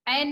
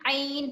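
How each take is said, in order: First: The vowel is a single 'ai' sound. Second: The vowel is a two-part 'aa-i' sound. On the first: The speaker calls it wrong. "ऐन नहीं पढ़ना है" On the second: The speaker calls it right. "आइन पढ़ना है"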